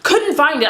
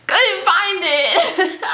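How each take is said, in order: First: Said in the usual way. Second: High, very drawn-out singsong; comic slow, awkward admission; sheepish singsong. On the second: Retold or imitated. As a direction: break the bad news in a stretched, pitched-up voice. Acts reporting back to man.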